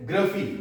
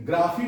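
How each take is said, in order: First: ग्रफी with a short uh; correct pronunciation. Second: ग्राफी with a long AA; wrong pronunciation. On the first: Teacher corrects it here too, ग्रफी with short uh. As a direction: say ग्रफी as GRUH-fee. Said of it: "ग्राफी नहीं बोलनी है". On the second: Teacher warns against this here too, ग्राफी with long AA. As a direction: say ग्राफी as GRAA-fee. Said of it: "यहां पर भी ग्राफी नहीं बोलनी है". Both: Shown as a demonstration.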